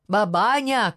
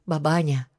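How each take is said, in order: First: Loud, higher-pitched cry to wake her; shouted call. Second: Said in the usual way. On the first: A narrator's reading. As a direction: shout it to rouse a sleeper. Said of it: "крикнул он".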